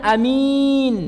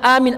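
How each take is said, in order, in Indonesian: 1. Vokal pertama pendek, vokal kedua panjang. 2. Vokal pertama dibaca panjang. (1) "a-nya pendek, min, min, minnya panjang" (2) "a-nya dipanjangkan"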